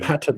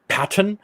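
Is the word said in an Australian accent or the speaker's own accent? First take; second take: own; Australian. First: It is said in the speaker's own accent. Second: It is said in an Australian accent.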